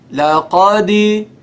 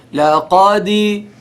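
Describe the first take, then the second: No difference in how they are said.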